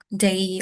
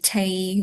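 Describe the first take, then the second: First: The word starts with a voiced D sound. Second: The word starts with a voiceless T sound. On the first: The speaker calls it right. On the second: The speaker calls it wrong.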